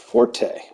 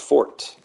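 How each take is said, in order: First: The final E is sounded; two syllables. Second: The final E is silent; one syllable. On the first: It is the musical term. "with the E sound" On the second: It names the strongest part of a blade. "it's pronounced fort"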